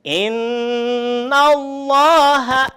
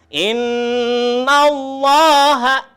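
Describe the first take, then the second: Both takes have the same delivery.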